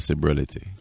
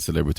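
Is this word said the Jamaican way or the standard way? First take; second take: Jamaican; standard. First: It is said with a Jamaican pronunciation. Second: It is said with a standard pronunciation. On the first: "in Jamaica, we kind of change up words sometimes. ... we say celebrity" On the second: "instead of saying celebrity"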